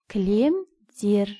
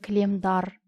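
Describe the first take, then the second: First: The suffix is said with the vowel e. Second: The suffix is said with the vowel a. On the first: The speaker calls it right. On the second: The speaker calls it wrong.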